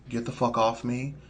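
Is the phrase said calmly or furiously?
calmly. It is said in a calm, polite tone. The request is made politely. "if you so oblige, could you please"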